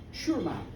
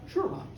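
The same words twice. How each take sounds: First: Softly put-on American accent; low, quiet American gentleman. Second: Said in the usual way. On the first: Toby politely agrees to Peggy's invitation, in an American accent. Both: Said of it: "But that's my American accent".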